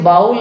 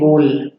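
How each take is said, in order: First: The vowel sounds like 'ow' in cow. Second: The vowel sounds like 'oh' in go. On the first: The speaker calls it wrong. "इसे बाउल नहीं कहेंगे" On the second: The speaker calls it right. "इसे कहेंगे बोल"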